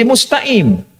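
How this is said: The middle consonant is a glottal stop.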